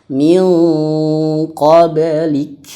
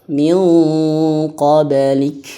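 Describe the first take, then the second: Both takes have the same delivery.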